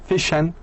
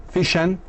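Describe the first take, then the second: Both takes have the same delivery.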